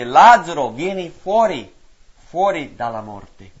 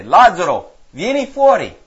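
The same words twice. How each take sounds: First: Slow loud call. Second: Calling out loud to a dead man; a commanding shout across the tomb. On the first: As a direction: stretch the command out as a loud call. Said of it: "E Gesù gridò ad alta voce". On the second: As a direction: proclaim it in a ringing shout. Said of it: "Gesù gridò ad alta voce". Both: Acted.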